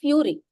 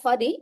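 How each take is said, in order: First: The first syllable sounds like 'few'. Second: The first syllable sounds like 'fur'. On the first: The speaker calls it right. "It is fury" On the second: The speaker calls it wrong. "I said it's not furry"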